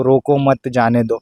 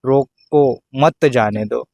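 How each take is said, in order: First: "रोको मत जाने दो" run together without a long break; अल्प विराम का उदाहरण. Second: Slow "रोको", clear pause, then "मत जाने दो"; अल्प विराम after रोको. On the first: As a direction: say "रोको मत जाने दो" as one connected phrase. ("रोको मत जाने दो" बिना लंबे विराम के, एक साथ) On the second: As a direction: break "रोको मत जाने दो" right after "रोको", slowly. ("रोको" पर रुककर, धीरे से "मत जाने दो") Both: Shown as a demonstration. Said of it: "अल्प विराम का भी बहुत बड़ा खेल है".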